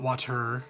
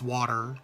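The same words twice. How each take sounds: First: The middle consonant sounds like a t. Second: The middle consonant sounds like a d. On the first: "not water" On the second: "I add a D to it"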